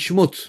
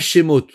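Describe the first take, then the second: First: The vowel after 'sh' is nearly silent. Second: A full 'e' vowel follows the 'sh' sound. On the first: The speaker calls it right. "on dit Shmot" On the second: The speaker calls it wrong. "on ne dit pas Shemot"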